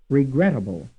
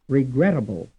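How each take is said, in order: The two takes are said the same way.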